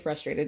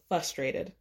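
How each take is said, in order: First: The word is said in its standard form. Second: A sound in the word is altered. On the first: The speaker calls it right. "Rarely do they say frustrated" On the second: The speaker calls it wrong. "It's always frustrated"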